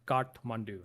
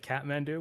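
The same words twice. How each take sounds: First: It is pronounced with a Nepali accent. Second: It is pronounced with an English accent. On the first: "that's how you say it in Nepali" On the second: "a lot of English people say Kathmandu, which is fine"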